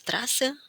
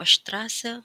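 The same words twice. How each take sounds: First: The word begins with a plain s sound. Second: The word begins with an sh sound. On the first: The speaker calls it wrong. "Lalu kenapa tidak Straße?" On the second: The speaker calls it right. "S T, S P, dan S C H itu semua dibaca sh"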